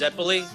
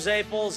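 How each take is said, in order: First: The word is said in its full form. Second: The word is said in a shortened form. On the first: This is the standard way of saying it. "The correct way to pronounce them is Zeppoli" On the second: This is the local way of saying it. "we call them Zaples, ... the short version"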